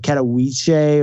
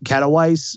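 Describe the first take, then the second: First: The city name is said the Polish-style way. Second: The city name is said the English-style way. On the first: The speaker calls it right. "but it's like Katowice or something like that" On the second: The speaker calls it wrong. "if you say it wrong"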